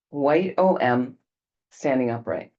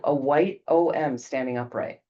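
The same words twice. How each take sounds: First: Slowed right down, each word set apart; slow repeat. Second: Said in the usual way. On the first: Shown as a demonstration. Teacher repeating the image slowly for the class. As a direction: spell it out slowly so it sinks in.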